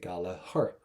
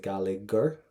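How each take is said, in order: First: The middle gh is silent. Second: The middle gh is pronounced as a sound. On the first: The speaker calls it right. "we say ... the G H in the middle of the word, not going to pronounce it" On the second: The speaker calls it wrong. "We don't say"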